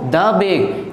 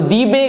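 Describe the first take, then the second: First: The article is said with a short 'thuh' vowel. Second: The article is said with a long 'thee' vowel. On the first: The speaker calls it right. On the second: The speaker calls it wrong.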